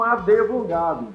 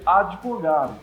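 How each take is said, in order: First: A full E vowel is added after the D. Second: No vowel follows the D at all. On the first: The speaker calls it wrong. "muitas pessoas pronunciam esse D errado. Pronunciam advogado. Não pode usar esse E" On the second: The speaker calls it right. "Uma pronúncia correta dessa palavra seria advogado. O D mudo"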